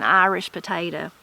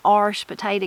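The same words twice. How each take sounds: First: Said in the usual way. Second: "Irish" said as one syllable, "arsh", before potato; Appalachian "arsh" potato. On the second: Shown as a demonstration. Telling viewers the mountain way, "Irish" as "arsh". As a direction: squeeze "Irish" into a quick "arsh". Dialect vs standard pronunciation.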